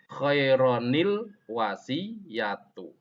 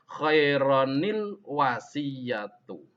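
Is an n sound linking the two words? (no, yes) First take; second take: yes; yes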